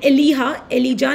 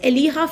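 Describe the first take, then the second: First: The middle consonant is a J sound. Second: The middle consonant is an H sound. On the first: The speaker calls it wrong. "Elijah nahi bolte" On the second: The speaker calls it right. "you pronounce as H here"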